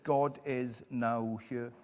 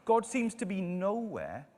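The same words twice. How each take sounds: First: "now here" slowed and split into two words. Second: Said in the usual way. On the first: Shown as a demonstration. Preacher turns nowhere around, "now here" said slowly as two words.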